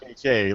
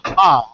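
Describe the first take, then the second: First: It is said as two separate letter names. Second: It is said as one syllable, like laughter. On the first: It stands for highly available. The speaker calls it right. "like highly available" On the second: It sounds like a laugh. The speaker calls it wrong. "like haha"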